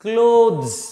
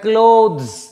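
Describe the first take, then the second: First: The vowel is long, as in 'close'. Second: The vowel is long, as in 'close'.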